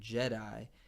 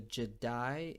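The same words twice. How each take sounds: First: The stress is on the first syllable. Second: The stress is on the second syllable. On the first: "rather than Jedi" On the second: "there's emphasis on that D"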